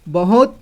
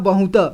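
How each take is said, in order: First: Every sound is pronounced fully and separately. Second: Some sounds are reduced and run together. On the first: The speaker calls it wrong. "इन सभी को पूरी तरह से उच्चारण किया मैंने" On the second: The speaker calls it right. "इसे बहुत पढ़ते हैं"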